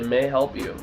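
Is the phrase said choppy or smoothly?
smoothly. The words flow together in one smooth rhythm. The speaker calls it right. "people say"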